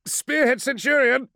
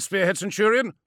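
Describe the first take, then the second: First: High, loud sudden call; excited exclamation. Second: High, loud doubtful query; questioning. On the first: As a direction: blurt it out urgently. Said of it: "uncharacteristically excited exclamation". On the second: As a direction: question the order. Chrysaor questions order. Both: Acted.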